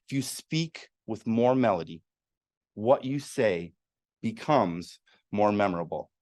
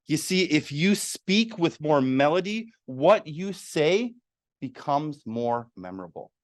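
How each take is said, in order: First: Said in the usual way. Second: Melodic speech. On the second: Shown as a demonstration. Speaker demonstrating melody to the audience, lively rising pitch. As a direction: lively pitch that rises and falls across the phrase. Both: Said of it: "Let me say that one more time".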